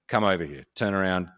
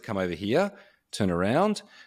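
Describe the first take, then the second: First: It is said assertively with a falling pitch. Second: It is said in an unsure, unconfident way. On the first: The speaker clearly knows what is wanted. The speaker calls it right. "that kind of downward tonality that's very assertive" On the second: The speaker seems unsure of deserving what is asked. The speaker calls it wrong. "It doesn't sound like I deserve it or that I know what I'm doing. It sounds unconfident"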